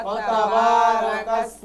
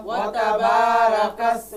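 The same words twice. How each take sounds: The two takes are said the same way.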